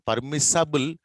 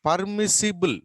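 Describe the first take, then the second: First: Permissible said as "par-mis-SA-bul", with an "a"; wrong-vowel pronunciation. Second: Permissible said as "par-mis-SI-bul", higher and firm; correct pronunciation. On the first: Teacher warns class of misspelling, permissible mispronounced as "par-mis-sa-bul". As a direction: swap the middle "i" of permissible for "a". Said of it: "Not permissible". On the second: Teacher corrects for the class, permissible with a clear "si". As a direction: give permissible a clear "si" in the middle. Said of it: "permissible అన్న ఉండాలి". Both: Shown as a demonstration.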